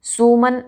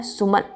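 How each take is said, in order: First: सुमन as "soo-man"; wrong long vowel. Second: सुमन with a short "su". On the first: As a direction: stretch the first vowel of सुमन. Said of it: "बिल्कुल नहीं बोला जाता". (सुमन को सूमन जैसा) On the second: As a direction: keep the first vowel of सुमन short. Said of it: "क्या पढ़ा जाता है". (सुमन में छोटा उ) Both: Shown as a demonstration.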